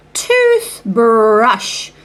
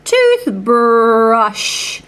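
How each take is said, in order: Both takes have the same delivery.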